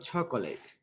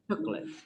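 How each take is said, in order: First: The middle vowel is pronounced, three syllables. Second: The middle vowel is skipped, two syllables. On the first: The speaker calls it wrong. "not chocolate" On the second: The speaker calls it right. "Like you skip"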